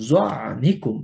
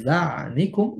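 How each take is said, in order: First: জানিকুম with a heavy, thick জ; heavy Arabic letter. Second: জানিকুম with a thin, light জ, slowly; light letter, wrong. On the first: Tajweed teacher demonstrating the correct heavy জানিকুম. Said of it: "আমি যদি বলি জানিকুম". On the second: Teacher showing the mistaken light জানিকুম. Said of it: "ভুল উচ্চারণ". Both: Shown as a demonstration.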